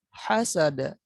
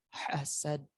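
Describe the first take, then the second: First: The word ends with a short vowel. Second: The word ends with a consonant.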